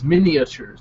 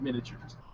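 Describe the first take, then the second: First: An extra vowel sound follows the first syllable. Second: No extra vowel sound follows the first syllable. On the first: The speaker calls it right. "It's miniatures" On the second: The speaker calls it wrong. "not miniatures"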